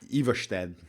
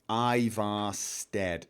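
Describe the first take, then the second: First: The S after the R is slurred. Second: The S after the R is plain. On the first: The speaker calls it right. "that's that's how you would pronounce Iverstedt" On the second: The speaker calls it wrong. "I feel like an absolute heathen saying it like that"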